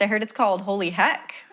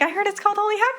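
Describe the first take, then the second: First: It sounds judgmental and disapproving. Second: It sounds warm and enthusiastic. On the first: The speaker finds the name improper. "why'd you say it like that? ... that's so weird" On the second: The speaker thinks the name is cool. "You weren't like"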